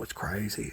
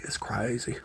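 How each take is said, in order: First: Much softer, murmured to the pups; soft aside. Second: Breathy whisper to the puppies. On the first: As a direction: say it low and quiet. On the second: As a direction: whisper it close. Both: Real, not acted. Repeated softly to puppies.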